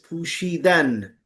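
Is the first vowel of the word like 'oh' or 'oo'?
oo. The first vowel is an 'oo' sound.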